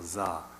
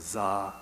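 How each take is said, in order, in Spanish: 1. La sílaba se pronuncia con tono bajo. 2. La sílaba se pronuncia con tono medio. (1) "bajo es como za" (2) "medio es como za"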